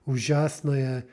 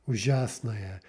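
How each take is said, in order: First: The unstressed ending vowel is reduced and unclear. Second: The same.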